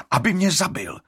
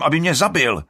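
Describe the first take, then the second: First: Bitter. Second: Loud, high angry yell; shouting. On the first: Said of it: "dodá Alrik". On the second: Alrik shouting he was to be killed. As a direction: yell it in accusation. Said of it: "křičí Alrik". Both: A narrator's reading.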